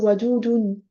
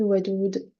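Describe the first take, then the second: First: The word ends with an added -un ending. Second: The word ends on the d, no ending. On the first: It is the full written form. "Alors que en vrai, ici, c'est wadoudoun" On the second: It is the last word before a stop. "je dis pas la dernière harakat"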